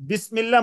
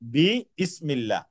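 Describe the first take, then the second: First: The two parts are merged into one word. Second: The two parts are said separately with both vowels. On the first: This is the lighter form used through frequent use. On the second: This is the original, heavier form.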